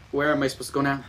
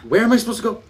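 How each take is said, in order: First: Said in the usual way. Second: High, frustrated repeat of the question; raised voice, really frustrated; exasperated. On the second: Real, not acted. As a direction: burst out, lost and fed up.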